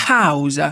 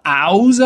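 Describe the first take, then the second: First: "house" with a breathed H; sounded H. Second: "house" with the H left silent; wrong French-style "house", no H; dropped H. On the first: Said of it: "vous aurez ce son". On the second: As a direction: start "house" straight on the vowel. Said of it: "on ne dit pas house". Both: Shown as a demonstration.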